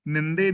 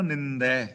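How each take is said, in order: First: ਨਿੰਦੇ ending in a plain e vowel; wrong reading. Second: ਨਿੰਦੈ ending in the open ai vowel; correct reading. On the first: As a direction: say ਨਿੰਦੇ with a closed e at the end. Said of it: "ਨਿੰਦੇ ਨਹੀਂ ਪੜ੍ਹਨਾ". (ਗਲਤ ਉਚਾਰਨ ਨਿੰਦੇ, ਅੰਤ ਤੇ ਲਾਂ) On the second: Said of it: "ਨਿੰਦੇ ਨਹੀਂ ਪੜ੍ਹਨਾ, ਨਿੰਦੈ". (ਸਹੀ ਉਚਾਰਨ ਨਿੰਦੈ, ਅੰਤ ਤੇ ਦੁਲਾਵਾਂ) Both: Shown as a demonstration.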